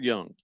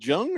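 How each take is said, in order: First: The name begins with a Y sound. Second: The name begins with a J sound. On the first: "the J U N G might be pronounced Young" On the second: "Jung or Young?"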